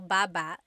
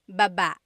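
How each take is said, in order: First: The stress is on the first syllable. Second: The stress is on the second syllable.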